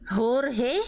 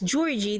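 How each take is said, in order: First: The name begins with an H-like sound. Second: The name begins with an English J sound. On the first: "it's kind of like Spanish" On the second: "They they actually pronounce the J as J"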